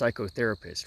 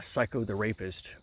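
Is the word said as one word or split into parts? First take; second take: one word; split. First: It is said smoothly as one word. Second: It is split into three separate words. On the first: It names a mental health professional. "it's pronounced psychotherapist"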